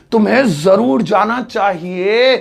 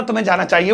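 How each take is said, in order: First: Slow, weighty stress on जरूर; insist, stretching जरूर and the final चाहिए; emphatic insistence. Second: Said in the usual way. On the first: Shown as a demonstration. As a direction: lean hard on जरूर and draw out चाहिए. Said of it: "वो जोर देकर है". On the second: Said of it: "वो सलाह थी".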